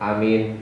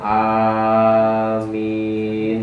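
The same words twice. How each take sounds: First: The first vowel is short. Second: The first vowel is long. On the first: The speaker calls it wrong. "Yang kurang pas kalau alifnya pendek" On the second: The speaker calls it right. "Pokoknya alifnya panjang"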